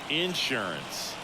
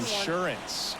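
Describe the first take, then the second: First: It is said in a Southern accent. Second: It is said in a standard accent.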